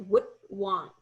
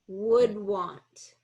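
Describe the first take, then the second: First: The D sound is swallowed, voice cut off. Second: The D sound is clearly voiced. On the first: The speaker calls it wrong. "what I'm hearing is" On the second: The speaker calls it right. "make sure we get that that placement with the D"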